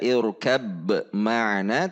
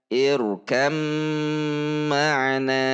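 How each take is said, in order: First: The b is pronounced separately before the m. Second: The b is merged fully into a doubled m. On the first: The speaker calls it wrong. "tidak dibaca irkab ma'ana" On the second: The speaker calls it right. "tetapi irkam ma'ana"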